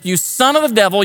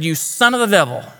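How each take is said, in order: First: It is said sternly, as a rebuke. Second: It is read plainly, without strong feeling.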